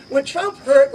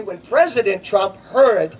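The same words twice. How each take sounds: First: Said in the usual way. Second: Slow, careful stress on President; fixing the title, President said deliberately; correcting himself, slower with weight on President. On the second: Real, not acted. Speaker corrects himself before a crowd, slow stress on President. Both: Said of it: "excuse me".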